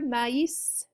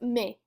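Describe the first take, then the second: First: The vowels are split into two syllables. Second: The vowels merge into one syllable. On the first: "Do you hear those two different sounds there?" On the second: "It'd be one syllable and that would be it"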